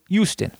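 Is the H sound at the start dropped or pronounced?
dropped. The word starts without an H sound. This is how people in Jersey say it. "We say Houston"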